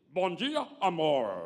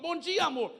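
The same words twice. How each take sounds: First: It is said in an affected solemn voice. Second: It is said in a normal everyday voice. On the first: The speaker sounds strange and unnatural. The speaker calls it wrong. "eu acho que é melhor você voltar a dormir, que você não acordou muito bem" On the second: A sincere everyday greeting. The speaker calls it right. "Seja natural"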